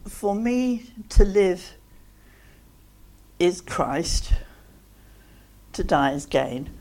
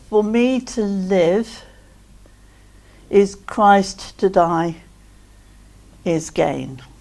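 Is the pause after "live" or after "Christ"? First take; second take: after Christ; after live. First: The pause comes after the word Christ. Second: The pause comes after the word live.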